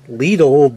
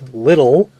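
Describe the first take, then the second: First: The name does not sound like 'little'. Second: The name sounds just like 'little'. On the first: This is thought to be the proper pronunciation. "I think it's Lidl" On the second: This is the speaker's own habitual pronunciation. "but I pronounce it little, like it's actually little"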